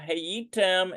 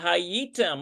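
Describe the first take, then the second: First: The first vowel is an 'eh' sound. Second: The first vowel is an 'ah' sound. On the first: This is the grammatically correct form. "grammatically, technically, it's supposed to be supposed to have these uh, nakud on there" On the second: This is how people commonly say it. "it is commonly pronounced uh, ... they pronounce it with more of an ah sound"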